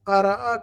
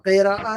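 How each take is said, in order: First: The first syllable has the vowel a. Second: The first syllable has the vowel i. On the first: The speaker calls it right. "क़रअ कहेंगे" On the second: The speaker calls it wrong. "क़िराअ नहीं कहेंगे"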